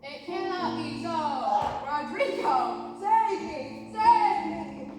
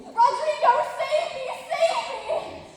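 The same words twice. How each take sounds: First: Stiff acting. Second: Much higher, loud frantic melodrama cry; frantic damsel cry. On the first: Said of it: "No, no, no. Do it like this". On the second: Shown as a demonstration. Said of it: "stagger across the room crying frantically".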